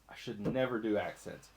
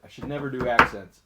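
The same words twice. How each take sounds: First: Quiet self-scolding. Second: Louder, with never hit hard; "I should never do accents" with a firm, punched never; stress on never. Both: Shown as a demonstration.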